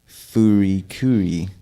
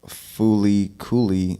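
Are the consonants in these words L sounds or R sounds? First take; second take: R sounds; L sounds. First: The words are said with R sounds. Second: The words are said with L sounds. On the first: "switch the L's and the R's" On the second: "instead of fooly cooly"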